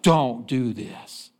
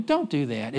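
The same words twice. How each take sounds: First: Slow stern rebuke. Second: Said in the usual way. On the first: Retold or imitated. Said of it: "It's like". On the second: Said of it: "rebuke is stronger than".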